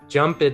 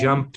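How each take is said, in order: First: It ends with an added vowel syllable. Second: It ends directly in a T sound. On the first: The speaker calls it wrong. "this one often is mispronounced" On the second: The speaker calls it right. "straight from the P to a T sound"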